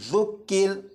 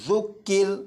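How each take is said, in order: Both takes have the same delivery.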